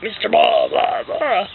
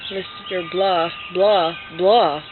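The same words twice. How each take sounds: First: Put-on, acted-out blahs; video clip version. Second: Slow, unexpressive reading of blahs; reader's version. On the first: Author imagines book playing the real clip, put-on voice. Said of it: "it'll be like". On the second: Reader who never heard the original, slow plain reading. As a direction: read the words slowly, without acting. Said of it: "Someone's gonna read the story". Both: Shown as a demonstration.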